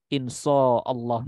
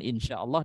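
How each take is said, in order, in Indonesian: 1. Bunyi 'sh' itu berat dan emfatis. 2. Bunyi 'sh' itu biasa dan ringan.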